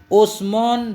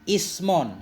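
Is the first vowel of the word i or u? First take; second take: u; i. First: The word begins with a u vowel. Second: The word begins with an i vowel. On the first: "usmun dengan dhammah hamzah" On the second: "dengan kasrahnya hamzah"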